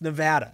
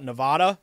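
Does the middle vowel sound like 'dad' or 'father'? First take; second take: dad; father. First: The middle vowel is flat, like in 'dad'. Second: The middle vowel is broad, like in 'father'.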